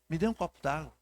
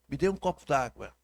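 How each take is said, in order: First: It is said in a soft, pitiful, pleading tone. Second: It is said in a calm, neutral tone. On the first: "Se você flexionar um pouco essa voz e fizer aquela carinha de coitadinha" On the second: "Quando eu digo assim"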